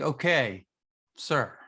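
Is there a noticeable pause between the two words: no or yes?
yes. There is a marked pause between the words. "you could be like"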